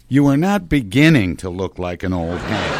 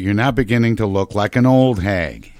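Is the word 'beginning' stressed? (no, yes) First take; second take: yes; no. First: The word beginning carries the main stress. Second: The word beginning carries no special stress. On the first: "Why do you emphasize beginning?" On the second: "That sounds even worse"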